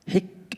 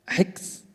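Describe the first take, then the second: First: The k ends cleanly with no added sound. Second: An extra s sound follows the k. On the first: The speaker calls it right. "الحك حك وليست حكس" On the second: The speaker calls it wrong. "أقول الحكس حكس، لا"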